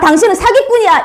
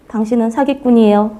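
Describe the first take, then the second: First: It is said harshly, with hostility. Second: It is said gently, without hostility.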